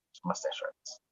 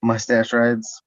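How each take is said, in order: First: Very soft, nearly voiceless aside; hushed throwaway joke; under the breath. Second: Slow, voiced repeat for the listener; stretched-out, fully voiced answer; clear repeat. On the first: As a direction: slip the joke out almost whispered. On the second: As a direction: say it out plainly, drawn out. Repeats after listener asks "Of what?. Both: Real, not acted.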